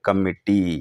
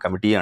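First: The m and t sounds are held long. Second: The m and t sounds are short. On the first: This helps to remember the double letters. "మనం spelling గుర్తుపెట్టుకోవడానికి ఎట్లా పెట్టుకోవాలి?" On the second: This is the everyday pronunciation. "మామూలుగా మనం కమిటీ అంటాం"

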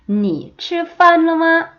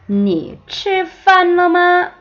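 No difference in how they are said.

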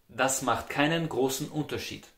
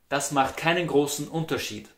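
Both takes have the same delivery.

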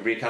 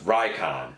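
First: The first syllable is said like 'ree'. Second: The first syllable is said like 'rye'. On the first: The speaker calls it wrong. "Recon is not actually Recon" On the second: The speaker calls it right. "it's pronounced like Icon with an R in front of it"

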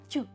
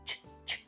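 First: A softened 't' followed by a 'yu' vowel. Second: A soft, clearly hushing single consonant sound. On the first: The speaker calls it wrong. "І виходить замість «ч», «тю»" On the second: The speaker calls it right. "Вимовляємо достатньо шипляче, але м'яко"

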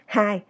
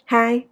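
First: The pitch stays level throughout the word. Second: The pitch stays level throughout the word.

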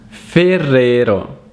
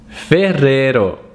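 First: The name is said with an Italian pronunciation. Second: The same.

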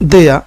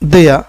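No difference in how they are said.

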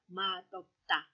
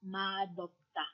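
First: It has a d sound before the o. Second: It has a d sound before the o.

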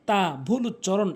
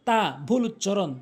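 Both takes have the same delivery.

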